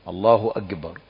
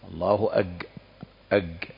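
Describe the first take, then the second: First: The consonant after a is a k. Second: The consonant after a is a j. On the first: The speaker calls it right. "إنما كاف" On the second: The speaker calls it wrong. "الحذر من تحويل الكافي إلى جيم"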